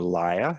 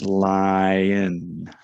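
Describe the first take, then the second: First: The word ends without the final N sound. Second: The word ends with a clear N sound. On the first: "they go lia" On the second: "put that little N sound at the end"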